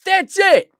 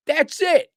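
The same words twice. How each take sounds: First: High and loud, driving it home; loud declaration, high and forceful; loud emphatic. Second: A notch quieter echo, still firm; softer repeat. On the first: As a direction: hammer the point home. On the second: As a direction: settle the point. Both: Shown as a demonstration.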